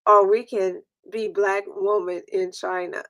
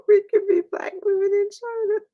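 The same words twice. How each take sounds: First: Said in the usual way. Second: High, breaking with laughter; giggling while repeating the joke; laughing through it. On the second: Real, not acted. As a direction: squeak it out mid-laugh.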